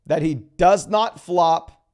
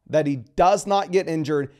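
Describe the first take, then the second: First: Very slow, hitting not firmly; slow down and punch not; stress on not. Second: Said in the usual way. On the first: Shown as a demonstration. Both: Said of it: "I want to stress the emphasis".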